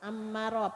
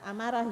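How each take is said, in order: First: It starts with a throaty guttural ain consonant. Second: It starts with a plain vowel, no throaty consonant. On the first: The speaker calls it right. "Ammarah pakai ain" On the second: The speaker calls it wrong. "bukan amarah"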